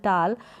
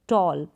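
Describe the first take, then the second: First: The vowel is an open unrounded 'ah' sound. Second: The vowel is a rounded 'aw' sound. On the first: The speaker calls it wrong. "ऐसे नहीं बोल सकते" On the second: The speaker calls it right. "हम pronounce करेंगे"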